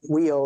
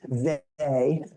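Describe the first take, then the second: First: The name sounds like the word 'wheel'. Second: The name sounds like the word 'they'. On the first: The speaker calls it wrong. "it's not wheel" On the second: The speaker calls it right. "it's they"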